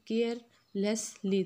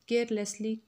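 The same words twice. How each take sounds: First: "carelessly" slowly broken into care, less, ly; slow syllable-counting delivery of "carelessly". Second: Said in the usual way. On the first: Shown as a demonstration. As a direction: say "carelessly" in three separate slow beats. Word, then split for syllable count.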